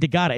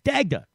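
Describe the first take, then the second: First: An extra vowel splits the name into three syllables. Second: The name is said in two syllables, no extra vowel. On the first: The speaker calls it wrong. "I kept saying Dagada" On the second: The speaker calls it right. "It's Dagda"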